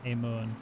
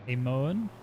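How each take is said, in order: First: "Amon" as a statement, without the rise; settled pronunciation. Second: "Amon" with a rising, questioning end; questioning pronunciation. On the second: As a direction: try out "Amon" as if unsure. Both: Shown as a demonstration. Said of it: "how to pronounce my last name".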